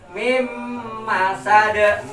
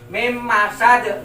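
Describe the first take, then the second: First: The nasal hum is held for two beats. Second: The nasal hum is cut short. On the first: The speaker calls it right. "Maka harus kita tahan" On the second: The speaker calls it wrong. "nggak boleh"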